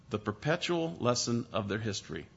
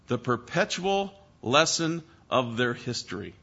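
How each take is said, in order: First: Repeated much softer and lower, perpetual leaned on; soft echo. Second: Said in the usual way. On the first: Shown as a demonstration. Preacher repeating the phrase to the congregation, softly. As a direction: let it sink in quietly.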